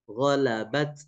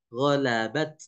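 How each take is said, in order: The two takes are said the same way.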